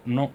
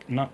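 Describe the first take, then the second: No difference in how they are said.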